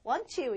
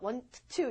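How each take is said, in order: First: The t at the end of want is dropped. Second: The t at the end of want is pronounced. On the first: The speaker calls it right. "이러죠" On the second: The speaker calls it wrong. "이러지 않죠"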